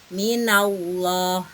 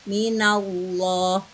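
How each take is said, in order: First: The L in 'llah' is thick and heavy. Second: The same.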